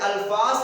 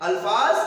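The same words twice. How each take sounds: The two takes are said the same way.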